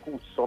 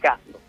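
First: The first vowel sounds like 'oo'. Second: The first vowel sounds like 'ah'. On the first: This is the plain Italian reading of the spelling. "qui uno lo leggerebbe Cusso" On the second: This is the American-style reading of the spelling. "lo facevo diventare all'americana, la U la facevo diventare A"

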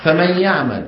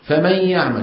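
Both takes have the same delivery.

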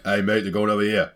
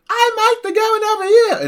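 First: It is said in a grown man's voice. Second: It is said in a young boy's voice.

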